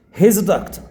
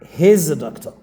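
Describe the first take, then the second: First: He and is merge into one short syllable. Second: He and is merge into one short syllable.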